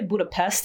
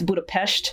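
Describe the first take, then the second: First: The s is a plain hissing s sound. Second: The s is a hushing sh sound. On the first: The speaker calls it wrong. "People say Budapest" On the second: The speaker calls it right. "the S's are pronounced like shh"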